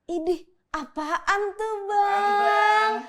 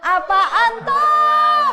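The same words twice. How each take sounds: First: Drawn-out mock whine. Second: Very slow, high, loud "Apaan tuh?"; drawn-out shout. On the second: Pretend. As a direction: stretch it into a long playful yell. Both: Teasing the pseudoscience term.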